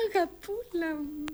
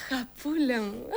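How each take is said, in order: First: Put-on slow, soft and higher, doting on the little girl; tender. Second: Said in the usual way. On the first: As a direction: coo the word αγαπούλα softly and slowly. (τρυφερά, αργά και σιγανά)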